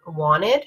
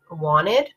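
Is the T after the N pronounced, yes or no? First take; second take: no; no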